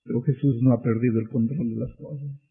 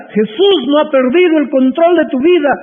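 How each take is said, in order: First: Hushed preacher's reassurance; quiet. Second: Shouted much higher and louder; triumphant preaching cry. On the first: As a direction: say it softly, almost to yourself. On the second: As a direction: proclaim it with full force to the hall. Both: Acted. Same line repeated, quiet then loud.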